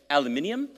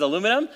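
First: Aluminium said the Australian way, al-yoo-MIN-ee-um, five syllables; a light Australian take on aluminium. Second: Said in the usual way. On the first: Shown as a demonstration. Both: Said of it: "that's how he says aluminum".

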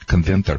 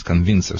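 First: "conventor" with -ven-tor in place of -vin-cer; wrong word shown. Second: "convincer" with -vin-cer, an S sound in the last syllable; corrected word. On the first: Trainer shows listeners the mistaken name, "conventor" with -tor. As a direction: say "conventor" with a T in the last syllable. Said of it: "not conven". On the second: Trainer corrects the device name for listeners, "convincer" said carefully. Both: Shown as a demonstration.

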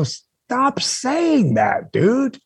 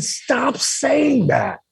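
First: Higher, very slow, every word pressed; firm insistence. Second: Higher, very slow, pressing each word; firm insistence. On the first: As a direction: stop him firmly, drawn out. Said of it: "And I go". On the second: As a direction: drag it out to make him stop. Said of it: "I said". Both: Retold or imitated.

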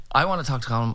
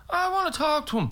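First: Lightly voiced stubborn demand; insist, only slightly raised; mild mock insistence. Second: High, drawn whine of demand; mock insistence. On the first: Dad demands to meet the singer, mildly insistent. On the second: Dad demands to meet the singer, mock insistence. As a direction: insist like a stubborn child, pitched way up. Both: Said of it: "your father was insisting on".

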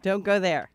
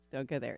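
First: Said in the usual way. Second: Dropped to a near mutter; quiet. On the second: Shown as a demonstration. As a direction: say it again under your breath, much softer. Repeats warning, then drops it.

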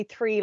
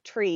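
First: Said in the usual way. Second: TREE with a hard T, no TH; three said as tree. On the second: Shown as a demonstration. Explaining her accent to the host, TREE with a hard T. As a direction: say TREE, dropping the H sound of three. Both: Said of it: "Apparently I say three like tree".

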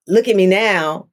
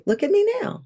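First: Said in the usual way. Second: "Look at me now" high and soft, rising on "me"; "Look at me now" lifted up and hushed, rising at "me"; look at me now, quieter. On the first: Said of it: "it wasn't a". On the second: Shown as a demonstration. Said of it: "but it was a".

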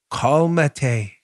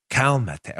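First: "Calmate" tried as KAHL-mah-tay, unsure Spanish stab; attempted Spanish. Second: "Calmate" said as KAL-n-meh-teh, a clumsy retry; admitted mispronunciation. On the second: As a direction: fumble "Calmate" again, clearly unsure of the Spanish. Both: Shown as a demonstration. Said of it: "I'm saying that wrong".

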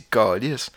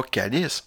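First: "calice" with a back, darker a, câ-lisse, a bit slower; right Quebec way. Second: "calice" with a front, bright a, like the church word; wrong way to say it. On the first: Showing listeners the real Quebec swear, "calice" with a back a. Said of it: "on dit calice". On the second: Explaining swear words to podcast listeners, "calice" with a front a. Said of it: "on dit pas calice". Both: Shown as a demonstration.

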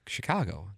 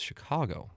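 First: Plain Saint Louis style Chicago; speaker's own Chicago. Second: Soft correcting Chicago with a reduced first vowel; corrected Chicago pronunciation. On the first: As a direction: say Chicago with an open AH, shi-KAH-go. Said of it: "Oh, you say Chicago". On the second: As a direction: say Chicago softly as a correction, shuh-KAH-go. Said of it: "No, it's Chicago". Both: Retold or imitated.

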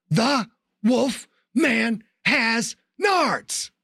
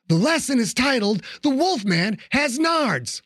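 First: High, very slow shouted taunt; triumphant shout. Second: Mocking announcement. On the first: Acted. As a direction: bellow each word as he strikes. Yelled while kneeing him. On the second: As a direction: announce it like a smug teacher. Mocking the beaten werewolf.

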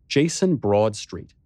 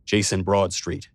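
First: Said in the usual way. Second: A lightly voiced confident man answering the phone; a hint of a sure businessman, slow; steady, strong phone answer. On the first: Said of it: "I knew that name". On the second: A narrator's reading. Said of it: "He had a sure, strong voice".

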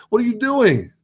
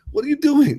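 First: Very high, laughing disbelief; incredulous laugh. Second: Incredulous repeat. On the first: Scene: asking overpacked women on a train, laughing incredulous. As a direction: squeal it out in amused disbelief. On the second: Scene: repeating the question to women with luggage, sharper disbelief. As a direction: push the disbelief further. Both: Retold or imitated. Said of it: "And I'm like".

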